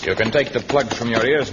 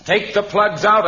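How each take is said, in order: First: Said in the usual way. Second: Höher, lauter und langsamer wiederholter Befehl; energische Wiederholung. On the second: Acted. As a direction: ruf es noch einmal deutlich lauter. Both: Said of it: "I said".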